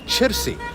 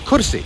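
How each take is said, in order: First: Rural village Arabic, beginning with a ch sound. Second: City Medani Arabic, beginning with a k sound.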